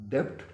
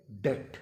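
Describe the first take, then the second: First: डेब्ट with the b sounded, depth; the mistaken way: डेब्ट with a b; wrong "debt". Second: डेट as DET, silent b; correct "debt". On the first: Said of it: "गलत pronounce कर रहे हैं". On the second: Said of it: "असल जो तलफ़्फ़ुज़ है". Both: Shown as a demonstration.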